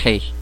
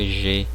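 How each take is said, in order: First: It begins with a rough sound from the throat. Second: It begins with a soft buzzing 'zh' sound. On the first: "a pronúncia ela não é igual ao português" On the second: "como eu pronuncio em português"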